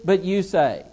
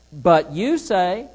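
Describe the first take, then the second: First: Said in the usual way. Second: Slow, YOU leaned on and rising; stress on YOU. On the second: Shown as a demonstration. Teacher contrasting God's command with their words, stressing you. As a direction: draw out But you say, hitting you. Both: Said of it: "do you see the difference?".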